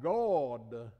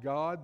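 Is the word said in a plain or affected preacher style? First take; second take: affected; plain. First: The word is said in an affected, preacherly way. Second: The word is said in an ordinary, plain way. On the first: "they'd talk about God" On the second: "They would talk about God"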